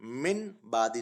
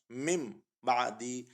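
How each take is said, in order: First: मिन बादी with a clear n before the ba; unmerged noon. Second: मिम बादी with the noon turned into a humming meem; iqlab demonstration. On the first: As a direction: keep the n unchanged in मिन बादी. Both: Shown as a demonstration. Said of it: "मिन बादी नहीं पढ़ेंगे".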